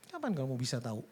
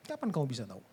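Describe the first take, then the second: No difference in how they are said.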